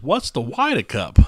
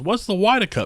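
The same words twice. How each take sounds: First: Put-on thick New Jersey accent; slow, thick East Coast drawl. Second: Put-on high, loud old lady voice; a squeaky old lady asking; high-pitched old lady. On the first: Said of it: "in this full, thick East Coast accent". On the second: Lady's quote retold again.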